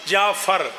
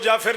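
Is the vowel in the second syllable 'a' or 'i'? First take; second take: a; i. First: The second syllable has an 'a' vowel. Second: The second syllable has an 'i' vowel. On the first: The speaker calls it right. "फे पे ज़बर होगी" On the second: The speaker calls it wrong. "किसी मासूम को जाफिर नहीं कहना"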